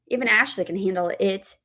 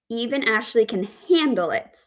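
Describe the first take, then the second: First: The stress falls on the word it. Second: The stress falls on the word handle. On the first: The thing being dealt with is the main point. "The word stress on that final word, it" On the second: She dislikes it but will not break down. "we have the word stress on handle"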